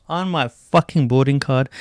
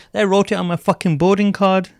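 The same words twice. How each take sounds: First: Said in the usual way. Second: Fucking boarding card punched high and loud; indignant emphasis. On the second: Real, not acted. Indignant emphasis, then repeated.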